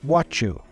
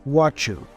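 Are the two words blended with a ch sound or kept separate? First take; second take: blended; blended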